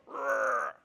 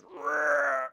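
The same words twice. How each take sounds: First: A short rolled growl; imitated growl. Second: A loud rolled growl in a put-on voice; imitated growl. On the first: Retelling a song detail, a mock growl. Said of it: "Did you hear the guy go". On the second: Describing the song's background voice, a louder mock growl. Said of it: "one guy goes".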